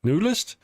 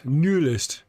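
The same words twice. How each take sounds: First: "Newlist?" with a questioning upward tune, pitched higher; unsure rising check of a name; name tried out. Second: "Newlist" said with a falling, settled tune; name said as a settled statement; name tried out. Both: Shown as a demonstration. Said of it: "I hope I said your name right".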